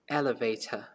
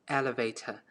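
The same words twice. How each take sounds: First: It is said in a British accent. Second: The same.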